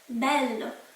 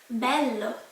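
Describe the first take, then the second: The two takes are said the same way.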